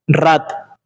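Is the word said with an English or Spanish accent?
Spanish. The R is a rolled Spanish trill. The speaker calls it wrong. "if I say this with a Spanish accent"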